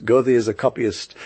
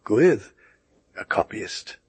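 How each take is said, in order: First: A calm, even reply, no heat; calmly. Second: Furious. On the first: Man with glasses answers the Germanophile calmly. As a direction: state it coolly as settled fact. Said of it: "more calmly". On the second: The neighbor repeats the insult to Goethe, mildly furious. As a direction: throw the words back in a touch of outrage. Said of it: "exclaimed my neighbor, furious". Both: A narrator's reading.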